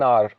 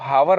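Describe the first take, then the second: First: The word starts with a vowel sound. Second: The word starts with an h sound. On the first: The speaker calls it right. "उसको कहना एन आर" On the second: The speaker calls it wrong. "इसको हावर नहीं पढ़ते"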